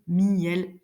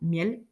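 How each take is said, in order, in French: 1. Le mot se prononce en deux syllabes. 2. Le mot se prononce en une syllabe. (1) "la diérèse, on le prononce en deux" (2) "la synérèse, ça veut dire qu'on prononce le son ensemble"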